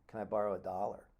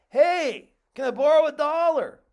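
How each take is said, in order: First: It is said at a normal conversational volume. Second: It is yelled loudly as if across a valley.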